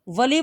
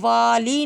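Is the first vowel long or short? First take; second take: short; long. First: The first vowel is short. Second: The first vowel is long. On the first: The speaker calls it right. "वली पढ़ना है हमने" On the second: The speaker calls it wrong. "वाली नहीं पढ़ना"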